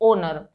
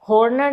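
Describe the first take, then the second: First: The word begins with a vowel, no h. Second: The word begins with an audible h sound. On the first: The speaker calls it right. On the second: The speaker calls it wrong. "हॉर्नर नहीं"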